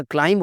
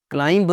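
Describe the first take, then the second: First: क्लाइंब ending on m; silent B. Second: क्लाइंब with a sounded final b; higher-pitched क्लाइंब with released b; mispronounced B. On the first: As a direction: say क्लाइंब as clime. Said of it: "क्लाइंब होता है". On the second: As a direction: end क्लाइंब on an audible b. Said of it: "क्लाइंब नहीं होता". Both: Shown as a demonstration.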